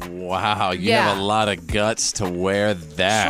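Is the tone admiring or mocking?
mocking. The voice sounds mocking and disapproving. The speaker is insulting the wearer. "Did she say it like"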